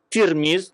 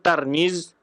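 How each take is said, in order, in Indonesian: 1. Vokal pertama adalah bunyi 'i'. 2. Vokal pertama adalah bunyi 'a'. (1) "ada yang membaca Tirmiz dengan baris di bawah" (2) "ada yang baris di atas Tarmiz"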